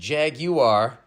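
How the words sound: It is said in a British pronunciation. "the Redcoats pronounce it Jaguar"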